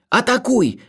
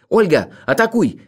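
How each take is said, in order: First: High-pitched frightened plea; fearful pleading. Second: Raised, louder urgent cry; shouted command. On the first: Narrator begs Olga to attack, high fearful plea. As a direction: beg in rising panic. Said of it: "молил я, охваченный страхом". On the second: Narrator shouts to Olga to attack, urgent cry. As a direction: call out the order sharply. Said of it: "крикнул я". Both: A narrator's reading.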